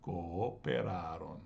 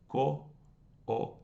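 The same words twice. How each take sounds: First: Cooperaron joined but unhurried, both O's heard; now say Cooperaron in one go, slowly; full word, every syllable kept; slow whole word. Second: Co-o-pe-ra-ron split into five beats, both O's separate; each O in its own syllable. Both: Shown as a demonstration. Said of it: "giving each syllable their due".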